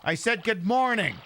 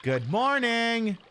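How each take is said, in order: First: Morning stressed with a falling tune; insistent repeat. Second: Slow sing-song good morning; drawn-out greeting. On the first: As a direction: press the word morning firmly. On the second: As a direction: stretch out morning. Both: Acted.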